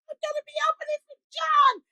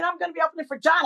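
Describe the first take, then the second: First: Mock excited scream. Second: Said in the usual way. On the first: Woman telling the house she'll open for a star, high mock scream. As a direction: squeal the news as a held-back scream. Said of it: "And I started screaming".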